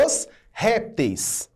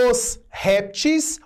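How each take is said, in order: First: "os répteis" with a clear "-teis" ending; "répteis" as RÉP-teis; plural in -eis. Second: "os répteis" said as "os réptis"; "répteis" as RÉP-tis, no diphthong; plural in -is. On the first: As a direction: sound the "ei" diphthong in "répteis". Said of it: "faria o plural com eis". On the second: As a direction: end "répteis" with a plain "-tis". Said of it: "pode fazer o plural com is". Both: Shown as a demonstration.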